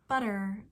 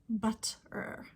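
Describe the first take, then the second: First: The middle consonant is a quick flap. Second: The middle consonant is a clear t. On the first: "I have a flap sound there. It's not a t" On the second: "I'm not saying butter"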